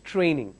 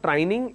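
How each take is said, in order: First: It is said with a standard pronunciation. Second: It is said with a regional pronunciation. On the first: The speaker calls it right. "it's training" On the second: The speaker calls it wrong. "It's not training"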